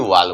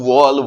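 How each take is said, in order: First: The vowel is an open 'aa' sound. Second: The vowel is a rounded 'aw' sound. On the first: The speaker calls it wrong. "ना कि वाल बोलेंगे" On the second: The speaker calls it right. "वॉल बोलेंगे"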